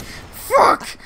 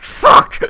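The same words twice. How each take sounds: First: Much higher, shrill-free squeaky yelp. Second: Sudden startled swear, breathy and loud; loud unvoiced yelp. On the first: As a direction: squeak it out as a hiccup jolt. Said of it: "Like that!". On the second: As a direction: yelp it like a hiccup caught you off guard. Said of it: "and you're like". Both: Shown as a demonstration.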